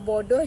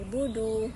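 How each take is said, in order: First: The vowels are o sounds. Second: The vowels are u sounds. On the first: "kalau O kepada U" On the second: "jadi budu"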